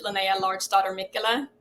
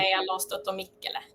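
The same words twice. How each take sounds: First: Linnea Large Daughter Mikkola said the American way, English vowels; anglicized reading of Linnea Large Daughter Mikkola; Americanized name, easy and plain; American pronunciation. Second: Swedish vowels on Linnea Large Daughter Mikkola; Swedish pronunciation. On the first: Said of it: "in the American way". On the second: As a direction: native Swedish name, said quietly. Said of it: "in my mother tongue". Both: Shown as a demonstration.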